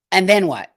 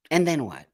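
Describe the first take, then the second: First: Pitched up and pushed loud, demanding an answer. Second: Said in the usual way. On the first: Real, not acted. Streamer loudly demanding what came next. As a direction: hurl the question at the chat. Rhetorical challenge to the audience.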